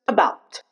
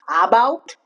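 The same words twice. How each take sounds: First: The first vowel is reduced to a short schwa. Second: The first vowel is a full, clear a sound. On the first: The speaker calls it right. "but just about" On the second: The speaker calls it wrong. "Those are both wrong"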